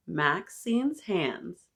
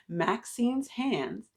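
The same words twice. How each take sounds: First: Drawn-out, deliberate title; title read slowly to the kids. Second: Drawn-out, deliberate title; title repeated slowly for listeners; slow title reread. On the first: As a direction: savor each word of the title. Reading book title slowly. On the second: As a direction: savor each word again. Rereading title after audio check. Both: Shown as a demonstration.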